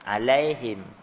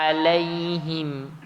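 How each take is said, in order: First: The final vowel is slanted toward 'e'. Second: The final vowel is a clear 'i'. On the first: The speaker calls it wrong. "Dia tak melunakkan sepenuhnya" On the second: The speaker calls it right. "barulah ha tu disebut dengan kasrah tu jelas"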